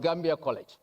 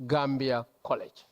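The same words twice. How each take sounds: First: Gambia College set apart and weighted, Gambia leaned on; announcing Gambia College with pointed emphasis; stress on Gambia College. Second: Said in the usual way. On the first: Shown as a demonstration. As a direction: repeat Gambia College deliberately to drive it home. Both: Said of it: "And I'm emphasizing that word".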